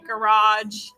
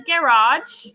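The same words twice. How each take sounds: First: The word is said in an American accent. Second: The word is said in a British accent. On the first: "if I say garage" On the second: "with her little British accent"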